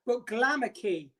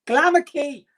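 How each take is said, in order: First: "Glamour Key" said slow like "anarchy"; pun on anarchy. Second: "Glamour Key" announced loud and high; proud name reveal. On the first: Vlogger explaining the lipstick name, slow and deliberate. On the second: Vlogger claiming the lipstick name, loud proud announcement. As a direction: belt out "Glamour Key" like a brand launch. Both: Shown as a demonstration. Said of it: "as in anarchy".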